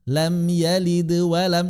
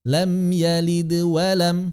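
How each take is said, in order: No difference in how they are said.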